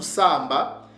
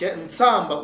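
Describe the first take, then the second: First: The word begins without a nasal sound. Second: The word begins with a nasal sound.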